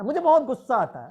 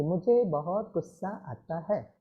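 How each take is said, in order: First: Huffy confession of temper; angry complaint. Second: Gentle, slow and softer; calm, affectionate admission; said lovingly. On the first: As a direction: blurt out "गुस्सा" crossly, as if fed up. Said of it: "अपने गुस्से में और गुस्से से बोलो". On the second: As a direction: soothe yourself, "मुझे" said softly and tenderly. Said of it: "उसको प्यार से बोलो". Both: Shown as a demonstration.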